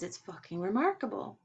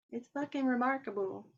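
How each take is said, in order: First: Said in the usual way. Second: "fucking" pitched much higher with extra stress; awed retelling, "fucking" jumps way up; emphatic repeat. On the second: Retold or imitated. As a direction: repeat it, hitting "fucking" hard and high.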